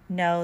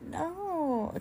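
First: The no sounds firm and clear. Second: The no sounds playful and flirty.

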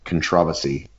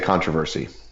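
First: It is said with a British pronunciation. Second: It is said with an American pronunciation.

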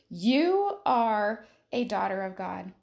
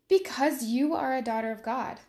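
First: It is said with strong extra emphasis. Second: It is said plainly, without extra emphasis.

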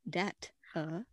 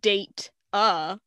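First: The first syllable does not sound like 'date'. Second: The first syllable sounds like 'date'. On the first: The speaker calls it right. "It's data. Dat-a" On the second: The speaker calls it wrong. "it's not like you're saying date-a"

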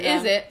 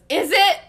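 First: It is said coolly, with less sarcasm. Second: It is said with a heavy sarcastic tone. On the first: "in a cool British accent, and doesn't say it as sarcastically" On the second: "as sarcastically as I just did"

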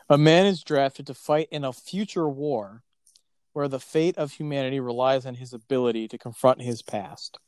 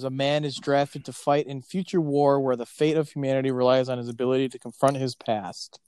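First: It is read slowly. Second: It is read at a normal pace.

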